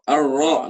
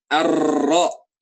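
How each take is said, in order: First: The r is faint and blurred, English-like. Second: The r is a full Indonesian-style r. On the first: "itu ro Inggris gitu ya, samar gitu ya" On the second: "itu R Indonesia"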